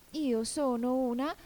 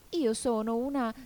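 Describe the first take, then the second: First: High, slow, rising and left hanging; hesitant. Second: High, unfinished start falling off; begin, then break off unsure; hesitant. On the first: Alice searches again for what she is, hesitant. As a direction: grope upward for the missing word. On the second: Alice tries to say what she is, hesitant. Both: A narrator's reading. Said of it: "ma con qualche dubbio".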